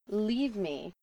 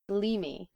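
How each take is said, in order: First: Both words are pronounced fully and separately. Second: The words run together into one reduced form.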